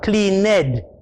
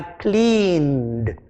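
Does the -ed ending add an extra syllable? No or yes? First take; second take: yes; no. First: The ending is said as an extra syllable. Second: The ending is a d sound, one syllable. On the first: The speaker calls it wrong. "not cleaned" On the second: The speaker calls it right. "now I hear a d"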